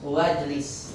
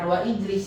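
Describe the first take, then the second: First: The 'i' vowel after 'wa' is dropped. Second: The 'i' vowel after 'wa' is kept. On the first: The speaker calls it right. "Gak dibaca" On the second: The speaker calls it wrong. "bukan wa ijlis"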